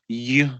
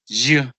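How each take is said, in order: First: It starts with a plain vowel sound. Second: It starts with a consonant 'y' sound. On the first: The speaker calls it wrong. "the pronunciation of university is not you" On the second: The speaker calls it right. "it's you, and you is a consonant sound"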